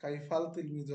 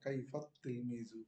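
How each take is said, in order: First: A clear l sound comes before the t. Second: The l merges into a doubled t sound. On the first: The speaker calls it wrong. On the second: The speaker calls it right.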